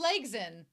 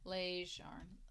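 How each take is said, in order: First: The name ends with a 'sen' sound. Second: The name ends with a 'jarn' sound. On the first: The speaker calls it right. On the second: The speaker calls it wrong. "I'm saying it wrong"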